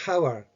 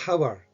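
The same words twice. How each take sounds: First: The word begins with a pronounced H sound. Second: The same.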